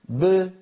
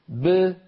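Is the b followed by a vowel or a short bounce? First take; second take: bounce; bounce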